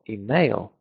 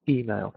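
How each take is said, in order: First: The stress is on the last syllable. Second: The stress is on the first syllable. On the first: The speaker calls it wrong. "we don't say" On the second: The speaker calls it right. "So you stress that first sound"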